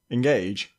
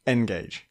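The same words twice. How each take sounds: First: Said in the usual way. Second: "Engage" as EN-gage, with a clear "en"; stress on first syllable. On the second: Shown as a demonstration. Host comparing both pronunciations, first-syllable stress. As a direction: open "Engage" on a full EN. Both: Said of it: "I'll just say them both".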